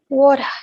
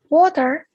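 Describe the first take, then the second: First: The final R sound is dropped. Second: The final R sound is pronounced.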